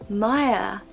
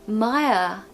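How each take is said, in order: No difference in how they are said.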